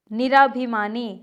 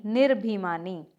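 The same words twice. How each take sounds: First: निराभिमानी with long "raa"; incorrect form. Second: निर्भिमानी without long "raa"; correct form. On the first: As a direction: say निराभिमानी as "niraa-bhimaani". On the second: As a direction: say निर्भिमानी as "nir-bhimaani". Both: Shown as a demonstration. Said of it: "अना नहीं होता".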